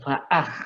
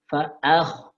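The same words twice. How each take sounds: First: The kh sound is light and unrounded. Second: The kh sound is heavy and rounded. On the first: The speaker calls it wrong. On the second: The speaker calls it right. "tapi perhatikan"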